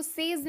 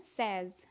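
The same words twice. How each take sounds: First: "सेज" said "sayz"; long "ay" vowel in "सेज"; wrong pronunciation. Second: "सेज" said "sez"; short open "e" in "सेज", rhyming with fez; correct pronunciation. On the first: Teacher shows learners the error, "सेज" as "sayz". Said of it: "इसको सेज नहीं बोलते हैं". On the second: Teacher corrects learners, "सेज" as "sez". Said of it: "इसको बोलते हैं सेज". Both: Shown as a demonstration.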